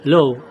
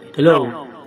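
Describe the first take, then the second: First: The voice has no echo effect. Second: The voice has a noticeable echo effect. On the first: "nawala na" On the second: "try natin pindutin yung positive"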